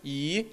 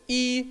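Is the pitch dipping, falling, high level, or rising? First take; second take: rising; high level. First: The pitch rises from middle to high. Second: The pitch stays high and level. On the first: "второй – «и»" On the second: "первый – это «и»"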